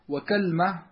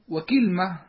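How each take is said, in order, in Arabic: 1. تُنطق kalma، وتبدأ بالحركة a. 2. تُنطق kilma، وتبدأ بالحركة i. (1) "على وزن تمرة" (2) "على وزن سدرة"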